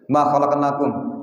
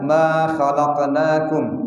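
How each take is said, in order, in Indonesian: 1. Vokal pertama dibaca pendek, satu harakat. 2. Vokal pertama dibaca panjang, dua harakat. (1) "kita baca satu harokat"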